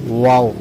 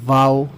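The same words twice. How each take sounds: First: The first sound uses rounded lips without teeth. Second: The first sound uses teeth on the lower lip. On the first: The speaker calls it right. "होंठों को गोल करके अदा होती है" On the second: The speaker calls it wrong. "ऊपर के दांत नीचे के होंठों से लगा देते हैं ... ऐसे ये नहीं"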